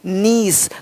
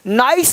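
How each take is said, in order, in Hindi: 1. यह स्वर 'ee' जैसा लगता है। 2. यह स्वर 'eye' जैसा लगता है। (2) "नाइस नहीं"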